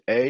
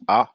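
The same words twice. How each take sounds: First: The letter is said with English pronunciation. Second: The letter is said with French pronunciation. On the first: "You pronounce it A in English" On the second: "In French, we pronounce it A"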